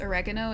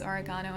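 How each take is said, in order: First: It is said in a non-Australian pronunciation. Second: It is said in the Australian pronunciation.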